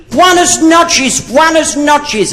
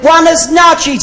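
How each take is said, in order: First: High, slow, sing-song Spanish greeting; imitating Spanish greeting. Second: High, slow, sing-song Spanish buenas noches; mock Spanish greeting. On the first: Comedian imitates the Spanish locals greeting him with buenas noches. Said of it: "everybody kept saying to me". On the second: Comedian tries a friendly Spanish greeting on a passing man. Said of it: "So I said".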